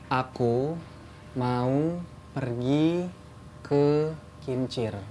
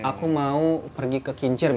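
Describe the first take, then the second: First: It is spoken slowly with each word drawn out. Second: It is spoken at an ordinary conversational pace.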